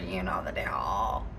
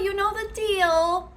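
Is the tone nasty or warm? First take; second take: nasty; warm. First: It is said in a nasty, cold tone. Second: It is said warmly with a rising lilt. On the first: The speaker dislikes the listener. "the tone of this woman's voice is so nasty" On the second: The speaker likes the listener. "It'd be a little like upper inflection"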